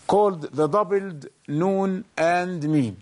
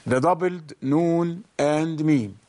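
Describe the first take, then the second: First: Said in the usual way. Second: Deliberate teaching repeat; slow repeat. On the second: Shown as a demonstration. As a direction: repeat the term slowly for the class.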